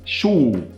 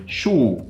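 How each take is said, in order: First: The vowel is strongly rounded and extreme. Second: The vowel is strongly rounded and extreme.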